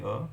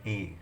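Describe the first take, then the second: First: "a" said as a short unstressed "uh"; everyday reading "a" as "uh"; weak form a. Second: "a" said in full as "ay", rhyming with day; strong form "a" pronounced "ay"; emphasized a. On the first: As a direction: reduce "a" to a quick schwa "uh". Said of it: "if I'm reading a sentence, I would say". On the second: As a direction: stress the article "a" as a clear "ay". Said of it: "if I'm emphasizing it, I would say". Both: Shown as a demonstration.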